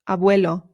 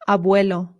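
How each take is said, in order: The two takes are said the same way.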